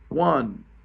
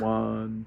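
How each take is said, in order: First: The count is lively, with the beat accented. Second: The count is flat and monotone, like a robot. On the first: The speaker calls it right. "So accentuation of the beat" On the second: The speaker calls it wrong. "you don't want to clap like a robot"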